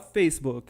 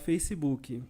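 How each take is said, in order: First: The word ends cleanly on the k sound. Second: An extra ee vowel follows the final k. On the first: "A gente não fala Facebook" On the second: "a gente fala Facebook"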